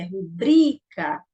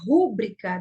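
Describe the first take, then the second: First: The stress is on the second syllable, bri. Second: The stress is on the first syllable, ru. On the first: This is the standard way to say it. The speaker calls it right. "Mas a pronúncia correta é rubrica. Então, o bri é o mais forte" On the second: This is the informal way people say it. The speaker calls it wrong. "se falar rúbrica da forma que informalmente se fala"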